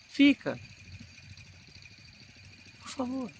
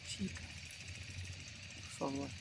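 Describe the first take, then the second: First: Much higher, pushed out to reach the back row; big theatrical cry begging her to stay; projected stage plea. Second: Soft, much quieter intimate plea; barely audible heartbroken plea; contained film acting. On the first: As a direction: project it for a theatre without a microphone. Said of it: "no teatro eu teria que impostar um pouco mais a voz". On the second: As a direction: hold it in, as if for a camera close-up. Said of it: "No cinema é mais contido". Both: Shown as a demonstration.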